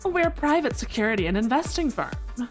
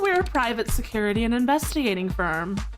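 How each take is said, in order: First: It is read in a breathy, low Valley Girl voice. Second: It is read in a plain, ordinary voice.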